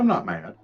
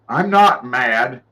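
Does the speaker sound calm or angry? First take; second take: calm; angry. First: It is said in a calm, sincere tone. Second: It is said in a tight, angry tone. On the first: She is really not upset. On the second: She is actually upset.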